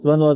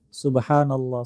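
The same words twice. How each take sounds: First: It is said fast and hurried. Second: It is said slowly and carefully.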